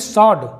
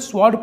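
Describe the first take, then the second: First: No w sound follows the s. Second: A w sound follows the s. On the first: The speaker calls it right. "इसे पढ़ेंगे सॉड" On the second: The speaker calls it wrong. "कई लोग इसे स्वॉर्ड पढ़ते हैं"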